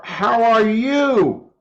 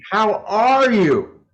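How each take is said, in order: First: "you" stressed, falling, slow; slow, weight on "you", "are" light. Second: "are" stressed, falling, slow; slow, weight on "are", "you" light. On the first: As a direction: lean on "you" in "How are you?". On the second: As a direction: lean on "are" in "How are you?". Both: Shown as a demonstration. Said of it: "where you put the emphasis".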